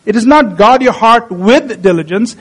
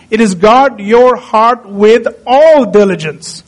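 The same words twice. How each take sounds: First: Said in the usual way. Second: Slow, with "all" leaned on hard and drawn out; stress on ALL. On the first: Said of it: "So it's not guard your heart". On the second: Shown as a demonstration. Preacher correcting the wrong reading to his congregation, slow stress on "all". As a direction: press down on the word "all" so "all diligence" lands as the point.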